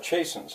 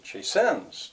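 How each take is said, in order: First: The stress is on the first syllable. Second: The stress is on the second syllable. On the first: The speaker calls it right. "First syllable stressed" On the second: The speaker calls it wrong. "the second one, I'd say, well, that would be"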